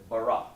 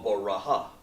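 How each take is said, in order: First: The word ends on a plain vowel. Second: The word ends with an extra ha syllable. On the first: The speaker calls it right. "I said bara" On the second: The speaker calls it wrong. "or baraha"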